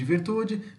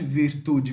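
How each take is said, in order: First: Said in the usual way. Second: "virtude" said as Italian virtù, veer-TOO; Italian word for "virtude", weight on final ù; Italian final stress. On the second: Shown as a demonstration. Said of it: "o acento tônico está na última sílaba". ("virtude" como virtù em italiano, com a última sílaba forte)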